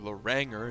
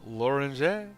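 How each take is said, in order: First: The name is said with an American accent. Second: The name is said without an American accent.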